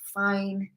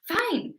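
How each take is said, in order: First: It sounds reluctant and resigned. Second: It sounds happy and willing. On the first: The person agrees without really wanting to. "it's kind of like they're giving in" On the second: The person is glad to agree. "maybe they're really happy to say yes"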